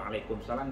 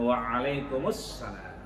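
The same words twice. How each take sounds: First: The greeting is cut short. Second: The greeting is said in full. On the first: This is how it is said locally. The speaker calls it wrong. "Jangan dipotong ... itu kalau waalaikumsalam di Ciputat itu" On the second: This is how it is said in Arab lands. The speaker calls it right. "Tapi kalau di sana waalaikumsalam"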